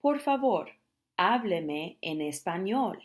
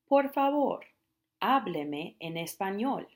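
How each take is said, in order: First: Por favor high, hábleme en español slow; slow Spanish demo. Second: Por favor high, hábleme en español slow and rising; slow Spanish demo. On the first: Teacher models asking someone to speak Spanish, slow. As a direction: ask them clearly and slowly. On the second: Teacher repeats the request for practice, slow. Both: Shown as a demonstration. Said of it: "you might tell them".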